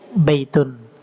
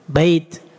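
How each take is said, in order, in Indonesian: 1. Kata ini berakhir dengan bunyi un yang ditambahkan. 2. Kata ini berhenti pendek tanpa vokal di akhir. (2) "kalau antum mengucapkannya boleh disukun"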